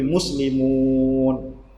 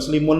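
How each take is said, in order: First: The vowel before the final n is long. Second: The vowel before the final n is short. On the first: The speaker calls it right. "maka waw menjadi simbol panjang" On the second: The speaker calls it wrong. "Bukan muslimun lagi"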